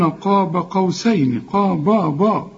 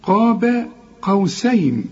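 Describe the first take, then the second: First: قاب with the باء thickened to a dark "bo"; wrong heavy ba. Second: قاب with a thin, light باء, drawn out slowly; heavy ق, then light ب in قاب; correct light ba. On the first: Quran teacher mimics the student's mistake, wrong heavy ba. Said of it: "وبرضو الباء ما تقولش". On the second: Quran teacher models it for the student, correct light ba. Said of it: "لا،". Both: Shown as a demonstration.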